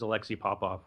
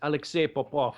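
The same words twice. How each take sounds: First: The name is said the common everyday way. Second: The name is said the careful original way. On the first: This is how most people say the name. The speaker calls it wrong. "everyone says" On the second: This is how the name should be said. The speaker calls it right. "is the correct pronunciation"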